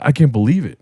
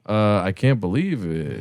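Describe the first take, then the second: First: It sounds amazed and thrilled. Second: It sounds nervous and hesitant.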